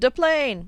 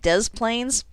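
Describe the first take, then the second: First: The S sounds in the name are silent. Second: The S sounds in the name are pronounced. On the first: This is how the speaker first reads it, French-style. "I always read it in my head like Tattoo" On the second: This is how the locals say it. "we're going to pronounce both S's in this name"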